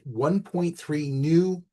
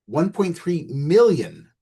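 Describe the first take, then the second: First: Said in the usual way. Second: "million" punched high and drawn out; slow down and lean hard on the word "million"; stress on MILLION. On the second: Real, not acted. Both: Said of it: "emphasis on million".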